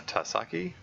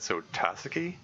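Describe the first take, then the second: First: Tusaki said as tu-SA-ki, stress on the middle syllable, rising like a question; unsure name attempt. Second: Tasaki said TA-saki, the weight on the first syllable; first-syllable stress. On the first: Reading an unfamiliar character name aloud, Tusaki said unsure with a rising stress on the middle syllable. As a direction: try Tusaki with the weight in the middle, guessing. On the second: Correcting himself on the character's name, Tasaki with stress on the first syllable. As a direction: land on the TA of Tasaki.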